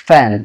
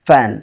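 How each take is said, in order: Both takes have the same delivery.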